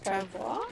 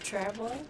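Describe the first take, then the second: First: The word is given a French pronunciation. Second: The word is given an English pronunciation. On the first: "French is travois" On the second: "English is travois"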